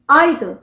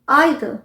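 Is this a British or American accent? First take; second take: British; British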